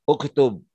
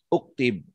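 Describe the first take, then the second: First: The second vowel is 'u'. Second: The second vowel is 'i'. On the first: The speaker calls it right. "harus dibaca uktub" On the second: The speaker calls it wrong.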